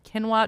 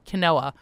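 First: Quinoa is pronounced the usual American English way. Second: Quinoa is pronounced the Israeli Hebrew way.

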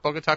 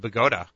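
First: It is said the way the Colombian city is. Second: It is said the way the New Jersey town is. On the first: The speaker calls it wrong. "not Bogota, Colombia" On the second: The speaker calls it right. "I think is the appropriate New Jersey pronunciation"

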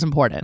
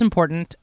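First: The final T sound is dropped. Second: The final T sound is clearly pronounced. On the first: "I don't say the last T" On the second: "I just said important properly"

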